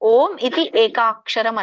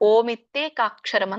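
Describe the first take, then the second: First: Iti and ekaksharam are said as separate words. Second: Iti is merged into ekaksharam as 'itye'. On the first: "ನಿಮ್ಗೆ ಅದು ಹೇಳಲಿಕ್ಕೆ ಆಗದಿದ್ರೆ" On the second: "ಎಲ್ಲ ಕೂಡಿಸಿ"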